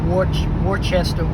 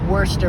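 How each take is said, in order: First: Every part of the word is sounded out fully. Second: The word is said in a short, clipped form. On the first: This is how the name is written. "but it's spelled like Worcester" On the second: This is how the name is actually pronounced. "It said like Worcester"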